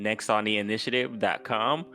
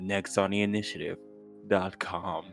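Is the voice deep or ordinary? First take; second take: ordinary; deep. First: It is said in an ordinary speaking voice. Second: It is said in a deep, warm fireside voice.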